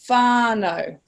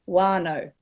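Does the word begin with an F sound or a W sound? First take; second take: F sound; W sound. First: The word begins with an F sound. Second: The word begins with a W sound. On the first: "usually that is a f sound" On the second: "in Taranaki, you would say wānau"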